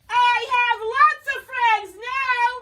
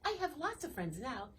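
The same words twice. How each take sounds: First: It is said very loudly. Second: It is said at a normal, soft volume.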